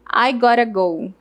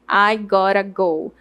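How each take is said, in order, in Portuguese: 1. As palavras são reduzidas e emendadas, com o t soando como tepe. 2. As palavras são reduzidas e emendadas, com o t soando como tepe.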